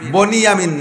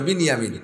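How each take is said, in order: First: The first syllable has an 'o' vowel. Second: The first syllable has an 'i' vowel. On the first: The speaker calls it wrong. "বনিয়ামিন না" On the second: The speaker calls it right. "একটু উচ্চারণ শেখেন বিনিয়ামিন"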